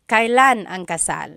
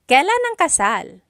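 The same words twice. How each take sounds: First: It is the more formal pronunciation. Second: It is the casual everyday pronunciation.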